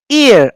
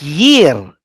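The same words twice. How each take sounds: First: "Ear" starting straight on the long ee vowel; high, long "Ear" with no y before it; silent initial ayin. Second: "year" with a clear y sound at the start; "year" as YEER, the wrong reading; mistaken y onset. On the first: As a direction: say "Ear" as a pure vowel-first EER. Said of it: "how I pronounce it". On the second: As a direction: glide in with a y on "year". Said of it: "I'm not pronouncing it as year". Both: Shown as a demonstration.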